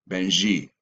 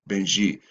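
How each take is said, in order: No difference in how they are said.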